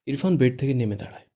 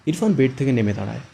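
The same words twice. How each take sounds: First: Said in the usual way. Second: Narration line read too hard and loud; too forceful. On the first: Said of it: "এবার একটু". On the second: Shown as a demonstration. Retake where the narration line comes out too forceful. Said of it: "এবার কিন্তু অনেকটা বেশি জোর হচ্ছে".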